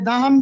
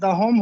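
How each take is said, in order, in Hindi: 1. आखिरी अक्षर में छोटी 'a' की आवाज़ है। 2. आखिरी अक्षर में लंबी 'o' की आवाज़ है। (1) "ये दहम भी नहीं होता" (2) "लफ्ज दहोम होता है"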